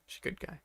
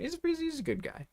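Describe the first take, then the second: First: Unvoiced whisper of He's a good guy. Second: Said in the usual way. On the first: Real, not acted. Whispered repeat.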